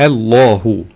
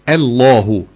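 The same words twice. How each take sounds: No difference in how they are said.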